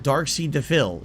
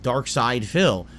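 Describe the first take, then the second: First: The name is said as 'Sea Defil'. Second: The name is said as 'Side Phil'. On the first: The speaker calls it wrong. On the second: The speaker calls it right.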